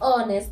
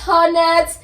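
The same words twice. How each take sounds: First: The h sound at the start is silent. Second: The h sound at the start is pronounced. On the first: The speaker calls it right. "It's supposed to be honest" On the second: The speaker calls it wrong. "it's not honest"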